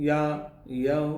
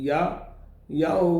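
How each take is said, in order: No difference in how they are said.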